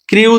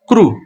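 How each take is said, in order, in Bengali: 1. শব্দটি 'ee' স্বর দিয়ে শেষ হয়। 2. শব্দটি 'oo' স্বর দিয়ে শেষ হয়। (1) "ক্রি উচ্চারণ হবে না" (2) "উচ্চারণ হবে ক্রু"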